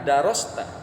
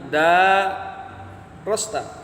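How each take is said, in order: First: The first vowel after the d is short. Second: The first vowel after the d is long. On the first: You studied it. "Ada juga yang tidak memanjangkan" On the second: You read it and had it read to you by others. "memanjangkan huruf dal"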